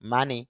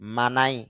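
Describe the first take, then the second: First: The vowels are 'ah' then 'ee'. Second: The vowels are 'ah' then 'eye'. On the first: "M A মা N Y নি" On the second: "M A মা N I নাই"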